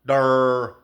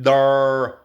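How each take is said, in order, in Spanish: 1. Pronunciada con acento de hablante de inglés. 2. Pronunciada con acento de hablante de inglés.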